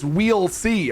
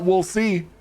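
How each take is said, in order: First: The first word sounds like plain 'we'll'. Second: The first word sounds like 'wool'. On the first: The speaker calls it right. "It's we'll see" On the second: The speaker calls it wrong. "it's not we'll see"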